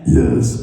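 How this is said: The put-on voice is low and scary.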